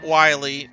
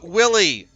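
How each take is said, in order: First: The first vowel sounds like 'eye'. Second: The first vowel sounds like 'ih'. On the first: "not Wiley" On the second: "Willie, not Wiley"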